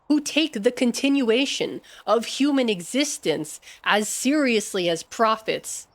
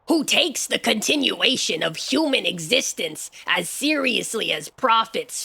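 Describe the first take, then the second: First: It is read in the speaker's normal voice. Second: It is read in a funny put-on voice.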